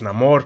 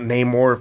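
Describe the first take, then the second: First: The name is pronounced as in the film. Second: The name is pronounced as in the comics. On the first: The speaker calls it right. "It's Namor" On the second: The speaker calls it wrong. "It's not Namor from the comics"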